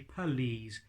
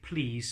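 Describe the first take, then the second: First: A tiny gap separates the p and l. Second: The p and l run straight together. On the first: The speaker calls it right. "say please" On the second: The speaker calls it wrong. "Don't say please"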